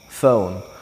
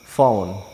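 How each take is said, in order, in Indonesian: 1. Dimulai dengan bunyi lembut yang tidak meledak, mirip f. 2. Dimulai dengan bunyi lembut yang tidak meledak, mirip f.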